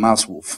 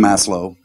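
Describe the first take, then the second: First: The name is said with a Polish pronunciation. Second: The name is said with an English pronunciation. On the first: The speaker calls it wrong. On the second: The speaker calls it right.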